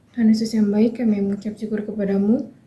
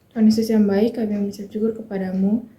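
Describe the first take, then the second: The two takes are said the same way.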